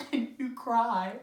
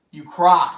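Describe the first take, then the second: First: Soft, hushed instruction; quiet prompt. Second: Louder, lower command; firm order. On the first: Telling the audience their part after the gunshot, quiet prompt. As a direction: say it softly to the house. Tells audience how they react. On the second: Ordering the audience to react to the tragedy, firm order. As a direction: press it on them forcefully. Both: Acted.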